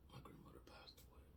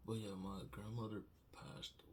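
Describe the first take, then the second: First: Choked whisper through tears; barely voiced, crying; tearful whisper. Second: Said in the usual way. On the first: Real, not acted. Tearful whisper about grandmother.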